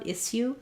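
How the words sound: The middle has an s sound then a y. "In British English, they may say issue with a s and a y sound"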